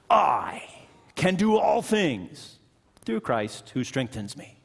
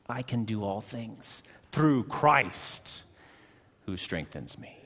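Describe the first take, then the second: First: The stress falls on the word I. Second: The stress falls on the word Christ. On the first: Success comes from one's own strength. The speaker calls it wrong. "you can read that verse like this" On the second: Strength comes from Christ, not oneself. The speaker calls it right. "We have to read it like this"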